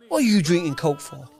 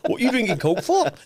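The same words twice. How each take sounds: First: It is spoken in a Cockney accent. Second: It is spoken in a Welsh accent. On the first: The speaker calls it wrong. "I was doing a Cockney accent or whatever" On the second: The speaker calls it right. "I should doing a Welsh accent now"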